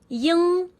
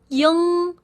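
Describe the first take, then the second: No difference in how they are said.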